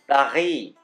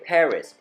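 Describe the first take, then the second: First: It is pronounced the way French speakers say it. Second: It is pronounced the way English speakers say it. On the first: "and not Paris" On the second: "I would say Paris ... when I'm speaking English"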